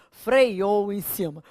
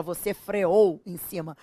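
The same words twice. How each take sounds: First: Freou said frei-ou with an added ei, slow; mock carioca freiou. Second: Freou as fre-ou, no ei; correct freou. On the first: Teacher imitating the carioca speaker, slow. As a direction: slip in the wrong diphthong in freou. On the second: Teacher showing the correct form to the class. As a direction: say freou cleanly with no glide. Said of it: "o carioca não fala". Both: Shown as a demonstration.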